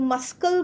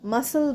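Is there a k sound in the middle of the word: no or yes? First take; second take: yes; no. First: A k sound is said before the l. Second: No k sound is said before the l. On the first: The speaker calls it wrong. "আমরা কিন্তু মাস্কল বলছি না" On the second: The speaker calls it right. "মাসল বলছি"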